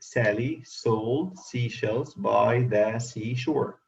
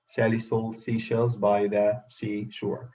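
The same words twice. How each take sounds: First: It is said at a slower pace. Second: It is said at a faster pace.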